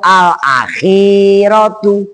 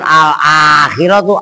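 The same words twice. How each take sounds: First: The vowel after kh is long. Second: The vowel after kh is short. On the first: The speaker calls it right. "Khinya pan, khinya dawa" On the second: The speaker calls it wrong. "Bukan al akhiratu"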